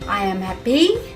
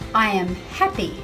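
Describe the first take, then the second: First: The stress is misplaced, sounding like 'a pea'. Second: The word stress falls where it normally does.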